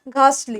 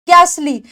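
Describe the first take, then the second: First: The t sound in the middle is clearly heard. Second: The t sound in the middle is dropped. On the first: "टी की sound जो है वो clear आती है।" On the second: "इसके अंदर ये टी silent होता है।"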